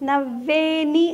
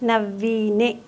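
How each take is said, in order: First: The middle vowel is an 'ay' sound. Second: The middle vowel is a long 'ee' sound. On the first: The speaker calls it wrong. "నవ్వేని అని పాడారు మీరు" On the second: The speaker calls it right. "Correct pronunciation ఏంటంటే"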